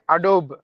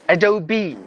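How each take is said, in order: First: The final E is silent. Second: The final E is pronounced. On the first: The speaker calls it wrong. "the word we usually say Adobe" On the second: The speaker calls it right. "that word is actually pronounced as Adobe. So that means we have to pronounce the letter E as well"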